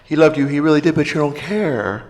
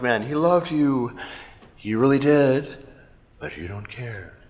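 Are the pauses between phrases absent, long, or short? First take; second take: absent; long. First: It runs on with no pauses. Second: There are long pauses between phrases.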